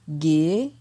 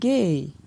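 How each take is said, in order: First: The syllable has a rising tone. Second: The syllable has a falling tone. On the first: "ton montant" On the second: "ton descendant"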